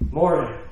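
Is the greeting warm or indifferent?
indifferent. It sounds flat and indifferent.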